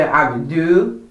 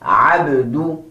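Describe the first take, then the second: First: "abdu" with the final U unrounded; wrong-way "abdu", lips not circled on U; mispronounced final vowel. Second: "Abdu" with a circular-lipped U; careful model "Abdu", nicely rounded U; rounded final vowel. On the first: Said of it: "do not say abdu". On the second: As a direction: round both lips fully on the end of "Abdu". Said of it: "both of your lips are nice and circular". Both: Shown as a demonstration.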